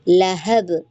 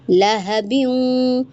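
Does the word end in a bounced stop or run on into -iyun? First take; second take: bounced stop; runs on. First: The final b stops with a light bounce. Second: The ending runs on smoothly as -biyun. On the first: The reader is pausing at this word. "यहाँ पर कलकला देकर रुकेंगी, लहब, हल्का सा" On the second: The reader is not stopping here. "कलकला नहीं देना, तो आप फिर इसको मिलाकर पढ़ेंगी"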